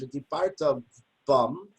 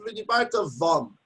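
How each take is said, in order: First: The last word begins with a B sound. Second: The last word begins with a V sound. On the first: The speaker calls it right. "the word that says in Shemaz" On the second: The speaker calls it wrong. "I'll take out the dot and read vidibarta vum. That's not good"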